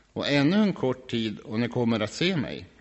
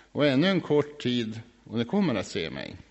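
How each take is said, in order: The two takes are said the same way.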